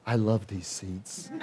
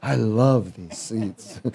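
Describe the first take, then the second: First: Slow, soft and dreamy; blissful. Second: Slow, laughing through the words. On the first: Retold or imitated. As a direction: savor each word, soft and slow. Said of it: "That's all I kept saying". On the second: Real, not acted. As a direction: chuckle as you repeat it.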